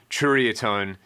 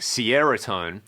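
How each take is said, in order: First: It begins with a 'ch' sound, like 'cherry'. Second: It begins like the word 'Sierra'. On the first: "imagine if you had jury, but you put a C H at the front" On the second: "like Sierra Tone"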